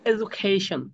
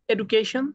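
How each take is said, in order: First: এডুকেশন slow, open a start and aspirated kh; foreign pronunciation. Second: Said in the usual way. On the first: Shown as a demonstration. Teacher imitating foreign clients, slow aspirated এডুকেশন. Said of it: "ওরা তখন কয় এডুকেশন". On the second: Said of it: "আমরা যখন বলি না".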